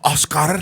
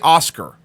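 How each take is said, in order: First: The name is said with an exaggerated Spanish accent. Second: The name is said with a plain English accent. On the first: This mocks someone's over-the-top pronunciation. The speaker calls it wrong. "I don't go Oscar" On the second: This is how the speaker normally says the name. The speaker calls it right. "do I still say Oscar?"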